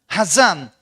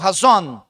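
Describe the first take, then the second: First: It is said in a Sephardi pronunciation. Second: It is said in an Ashkenazi pronunciation. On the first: "Hazan é Sefaradi" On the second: "se eu for usar os termos askenazitas aqui dentro, eu não falo Hazan, eu falo Hazon"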